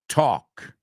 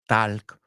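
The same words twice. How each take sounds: First: The L sound is silent. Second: The L sound is pronounced. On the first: The speaker calls it right. "La L no la quiero oír" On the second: The speaker calls it wrong. "No walk, talk"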